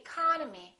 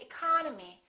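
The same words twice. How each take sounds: First: The unstressed vowels are reduced to uh. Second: The unstressed vowels are reduced to uh.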